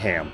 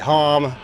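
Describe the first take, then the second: First: The vowel is front, like in hat. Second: The vowel is open, like in hot. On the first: The speaker calls it wrong. "some guys say ham" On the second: The speaker calls it right. "Most of the guys say hom"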